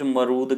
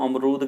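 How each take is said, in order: First: The initial vowel is dropped, starting with m. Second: The word begins with an a vowel sound. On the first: "अमरूद का ए खा रखा है कुछ लोगों ने" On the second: "कुछ लोग अमरूद को अमरूद कहते हैं"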